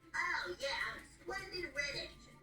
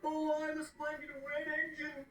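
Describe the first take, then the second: First: It is said in a plain, casual voice. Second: It is said in a deep, snobby voice.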